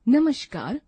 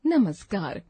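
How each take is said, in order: First: नमस्कार with sh, namashkar; wrong pronunciation. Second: Said in the usual way. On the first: Shown as a demonstration. Teacher reading the wrong form, sh in the middle. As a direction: say नमस्कार with a sh sound. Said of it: "अशुद्ध शब्द". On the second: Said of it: "शुद्ध शब्द".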